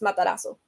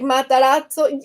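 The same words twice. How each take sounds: First: The middle has a plain 's' sound. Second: The middle has a 'ts' sound. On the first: "more like Spanish... without the T" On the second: "So that is the correct way"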